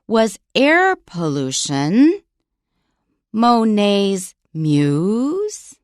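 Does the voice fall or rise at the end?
rise. The pitch rises at the end. It is a yes-no question. "reading it with an upward intonation, listen to how it sounds"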